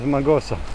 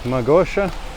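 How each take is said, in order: First: The middle consonant is a plain 's' sound. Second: The middle consonant is an 'sh' sound. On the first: The speaker calls it right. "the proper pronunciation is Magosa" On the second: The speaker calls it wrong. "not Magosha"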